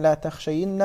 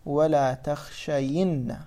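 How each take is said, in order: First: Said in the usual way. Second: "ولا تخشين" drawn out slowly, syllable by syllable; slow demonstration. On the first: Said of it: "إذن لا تخشين". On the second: Shown as a demonstration. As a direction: stretch out "ولا تخشين" for students. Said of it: "نأتي نحرك الياء نقول".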